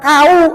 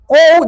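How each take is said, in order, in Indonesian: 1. Diftong ini dimulai dengan bunyi a yang terbuka. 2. Diftong ini dimulai dengan bunyi o yang membulat. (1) "jangan kau. Salah" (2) "Ko dengan u kou"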